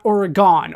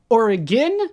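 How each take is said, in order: First: It uses an East Coast pronunciation. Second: It uses the local Oregon pronunciation. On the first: "an Eastern United States pronunciation, an East Coast thing" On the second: "what the locals here call everything"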